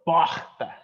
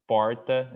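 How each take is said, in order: First: Porta with the R dropped and an open O; Northeast porta. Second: Porta with a tapped R and a closed O; São Paulo porta. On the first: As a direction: porta with the R softened away as in the Northeast. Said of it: "they go like porta". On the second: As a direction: porta with a clear R, the way we say it. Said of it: "we say more like po, porta". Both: Shown as a demonstration.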